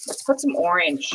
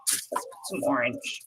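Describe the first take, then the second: First: Said in the usual way. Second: Soft whisper to herself. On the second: Real, not acted. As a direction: whisper it, barely voiced. Repeated under her breath.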